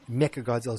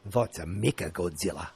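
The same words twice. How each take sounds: First: Said in the usual way. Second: Put-on low-pitched New Zealand accent. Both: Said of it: "That's my New Zealand accent".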